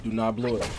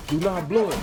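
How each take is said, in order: First: Said in the usual way. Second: Higher, firmer "Do not blow it"; insistent self-warning. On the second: Real, not acted. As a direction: press "Do not blow it" with raised pitch. Coaching self, building up.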